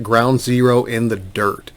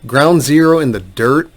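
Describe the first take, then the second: First: Said in the usual way. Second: Doubting repeat, turned into a question; incredulous echo. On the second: Retold or imitated. Lawyer reacting to the adviser's bleak claim, incredulous. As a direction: echo the quote as if you can't believe it.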